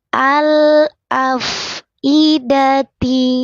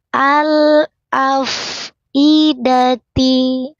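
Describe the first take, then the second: Both takes have the same delivery.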